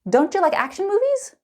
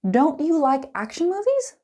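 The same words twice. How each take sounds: First: It is said quickly with a ch sound linking. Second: It is said slowly with every word clear.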